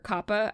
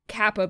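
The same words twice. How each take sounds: First: It is pronounced in a Japanese way. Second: It is pronounced in an English way.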